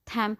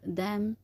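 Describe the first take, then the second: First: The word begins with an aspirated t sound. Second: The word begins with a d sound. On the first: The speaker calls it wrong. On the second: The speaker calls it right.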